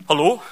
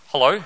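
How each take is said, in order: First: Said in the usual way. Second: Put-on Hello? in a thick New Zealand accent; rising Kiwi Hello?, broad vowels. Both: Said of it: "My thick Kiwi accent".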